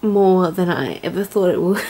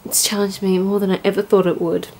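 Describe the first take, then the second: First: Real tears catching at the end; tearful. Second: Said in the usual way. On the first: Real, not acted. Vlogger admitting how challenged she has been, tearful. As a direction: start firm, give way to tears. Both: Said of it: "Why am I crying".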